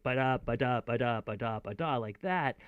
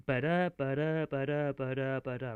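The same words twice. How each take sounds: First: Ba-da ba-da bounced like a dance groove; mock dance-music beat. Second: Ba-da ba-da chanted as a steady da-DUM beat; rhythmic ba-da chant; meter rhythm. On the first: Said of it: "it's not like it's dance music". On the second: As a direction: tap out the iambic beat. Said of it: "the meter of this". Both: Shown as a demonstration.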